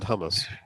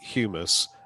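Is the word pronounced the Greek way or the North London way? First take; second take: North London; Greek. First: The word is said with a North London pronunciation. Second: The word is said with a Greek-style pronunciation. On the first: The speaker calls it right. "I should have said hummus" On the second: The speaker calls it wrong. "I was using the Greek uh, um, pronunciation"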